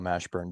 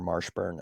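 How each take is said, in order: First: The first syllable has no R sound. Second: The first syllable has an added R sound. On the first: The speaker calls it right. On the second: The speaker calls it wrong.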